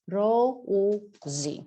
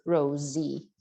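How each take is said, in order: First: "Rosie" slowly, in separate drawn-out sounds; syllable by syllable. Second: Said in the usual way. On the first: Shown as a demonstration. Teacher sounds out the name ending.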